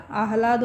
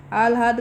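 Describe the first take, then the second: First: आह्लाद with h before l, aah-laad; correct pronunciation. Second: आह्लाद with l before h, aal-haad; wrong pronunciation. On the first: Teacher gives the corrected word, pronouncing आह्लाद as aah-laad. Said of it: "हो जाता है". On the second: Teacher cites a common error, mispronouncing आह्लाद as aal-haad. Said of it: "का आह्लाद हो जाता है". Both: Shown as a demonstration.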